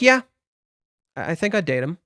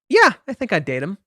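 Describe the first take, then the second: First: It sounds flat, monotone and a little unhappy. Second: It sounds lively, bright and cheerful. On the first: The speaker calls it right. "I want Chizuru to sound a little unhappy here. Just like" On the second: The speaker calls it wrong. "Not like that"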